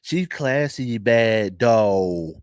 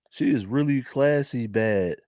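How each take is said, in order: First: Slow Philly accent, stretched vowels. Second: Philly accent. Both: Real, not acted. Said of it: "You can hear all my Philly accent".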